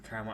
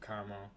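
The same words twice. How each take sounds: First: It is said with two syllables. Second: It is said with three syllables. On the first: It names a coated apple. "a caramel apple only gets the first A" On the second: It names a piece of candy. "a piece of caramel candy gets both A pronounced A's pronounced"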